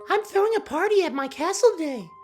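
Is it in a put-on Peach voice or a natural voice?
Peach voice. It is said in a put-on Peach voice.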